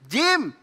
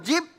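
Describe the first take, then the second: First: The word ends with an m sound. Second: The word ends with a b sound. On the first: The speaker calls it right. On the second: The speaker calls it wrong. "kok jib?"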